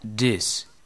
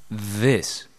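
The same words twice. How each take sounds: First: The word begins with a short, hard d sound. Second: The word begins with a long, breathy th sound. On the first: The speaker calls it wrong. "pero muchos aquí lo pronuncian" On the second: The speaker calls it right. "que se pronuncia"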